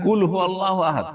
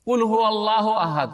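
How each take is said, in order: First: কুল said as গুল with a hard g; mispronounced কুল as গুল with a laugh; gul for kul. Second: Said in the usual way. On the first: Shown as a demonstration. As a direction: start with গুল in place of কুল. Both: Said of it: "কেউ যদি বলে".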